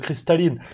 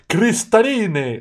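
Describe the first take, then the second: First: It is said with a plain French accent. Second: It is said with an Italian accent. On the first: The customer places the order. "tu dis" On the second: The waiter repeats the order back. "il te le répète avec son accent"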